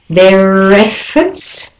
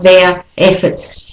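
First: The R links smoothly into the next word. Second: The two words are said separately, not linked. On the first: The speaker calls it right. "so you link them together" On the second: The speaker calls it wrong.

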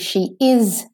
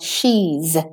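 First: The words are said in full, uncontracted. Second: The words are said as a contraction. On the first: The speaker calls it wrong. "I don't want to hear she is friends" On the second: The speaker calls it right. "I want she's"

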